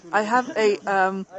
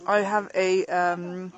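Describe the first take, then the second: No difference in how they are said.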